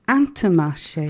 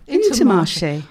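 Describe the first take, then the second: First: The first vowel is a nasal vowel. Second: The first vowel is an oral i sound. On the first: The speaker calls it right. "ça s'appelle Intermarché" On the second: The speaker calls it wrong. "il y a beaucoup d'anglais qui Dit"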